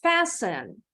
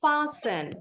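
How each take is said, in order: First: "Fasten" with the A of "cat" and silent T; "Fasten" said FASS-en, no T; short-A fasten. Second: "fasten" with the A of "father", T silent; alternative broad-A fasten. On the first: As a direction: model "Fasten" as FASS-en for repeating. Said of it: "repeat after me". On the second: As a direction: say "fasten" as FAH-sen. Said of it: "You may also pronounce it as". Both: Shown as a demonstration.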